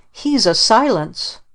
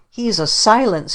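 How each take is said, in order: First: Put-on slower, higher child's yell; mild mock scream. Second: Put-on higher, a child's mild yell; mild mock scream. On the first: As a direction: drag out the accusation, understated. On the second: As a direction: shriek it, understated. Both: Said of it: "he screamed".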